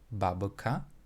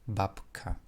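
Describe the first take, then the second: First: The middle consonant is voiced, like b. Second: The middle consonant is unvoiced, like p. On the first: The speaker calls it wrong. "babka will not be babka" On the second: The speaker calls it right. "but babka"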